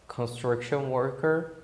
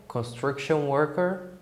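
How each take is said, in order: Both takes have the same delivery.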